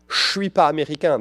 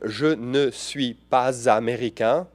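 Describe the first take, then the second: First: The word 'ne' is left out entirely. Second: The word 'ne' is clearly pronounced. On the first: This is how people usually speak. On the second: This is the form learned from textbooks.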